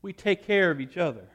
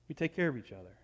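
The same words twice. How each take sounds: First: Said in the usual way. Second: Gentle murmured repetition; soft repeat. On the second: Shown as a demonstration. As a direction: repeat it much softer, falling on "care". Repeated line, second take softer.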